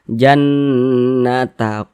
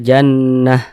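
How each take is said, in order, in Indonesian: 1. Kata ini diakhiri dengan bunyi ta. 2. Kata ini diakhiri dengan bunyi h. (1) "tidak berhenti kita jannata qo, nah, huruf ta dibaca" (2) "kita berhenti tepat di huruf ta marbutoh maka dibaca jannah"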